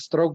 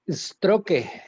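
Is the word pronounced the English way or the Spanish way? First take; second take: English; Spanish. First: It is pronounced the English way. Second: It is read with Spanish sounds, as spelled. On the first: "es el término en inglés correcto" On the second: "si nosotros aplicáramos el idioma castellano"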